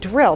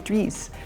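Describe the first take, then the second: First: The word is said in a plain accent. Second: The word is said in a heavy Spanish accent. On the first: "He was saying drill" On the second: "with a heavy Spanish accent, he was saying dries"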